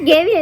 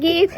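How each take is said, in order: First: It is said with two syllables, like 'gavi'. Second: It is said as one syllable with a long 'ee'. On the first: The speaker calls it wrong. "ഗവി അല്ല" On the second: The speaker calls it right.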